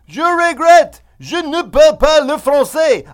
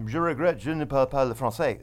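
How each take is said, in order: First: It is spoken very loudly, almost yelled. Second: It is spoken at a normal volume. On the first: The speaker calls it wrong. "I have this tendency to speak really loudly in French" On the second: The speaker calls it right. "instead of saying"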